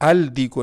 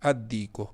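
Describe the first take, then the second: First: The L is clearly pronounced before the D. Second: The L merges into a doubled D sound. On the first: The speaker calls it wrong. "अल दी को नहीं पढ़ोगे" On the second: The speaker calls it right. "क्या पढ़ोगे अद्दी को"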